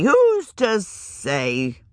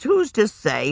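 First: Drawn out, slow and wondering; slow musing. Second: Said in the usual way. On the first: A narrator's reading. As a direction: let it hang slowly. Moss musing, repeated phrase.

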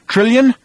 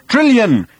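First: High, loud questioning call, rising; shocked, weakened shout. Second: High, loud call, falling at the end; shouted. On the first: Arthur searching the smoke for Trillion, shocked shout. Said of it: "in a shocked and weakened voice". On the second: Arthur calling for missing Trillion, shouted. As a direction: shout the name across a wreck. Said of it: "shouted Arthur again". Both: A narrator's reading.

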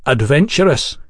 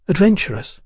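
First: Said in the usual way. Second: ADVENTURESS raised high as a query; high, questioning lilt on ADVENTURESS; questioning echo. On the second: A narrator's reading. She queries the word back.

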